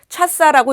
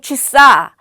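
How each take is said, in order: First: The first vowel sounds like a. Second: The first vowel sounds like i. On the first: The speaker calls it wrong. "차사라고 읽지 않고" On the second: The speaker calls it right. "취사라고 읽습니다"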